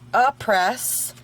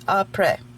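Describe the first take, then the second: First: It is pronounced like English words 'a press'. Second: It is pronounced as the French word après. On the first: The speaker calls it wrong. "It is not a, a press" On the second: The speaker calls it right. "It is après. It's French"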